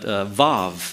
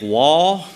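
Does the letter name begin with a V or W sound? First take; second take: V; W. First: The name begins with a V sound. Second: The name begins with a W sound. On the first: The speaker calls it right. "they pronounce the V, the W as a V" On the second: The speaker calls it wrong. "You might think wall"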